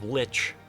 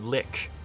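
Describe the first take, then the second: First: The word ends with a ch sound. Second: The word ends with a k sound. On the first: The speaker calls it right. "they changed the pronunciation of lich" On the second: The speaker calls it wrong. "to lick. And it's like, no, no"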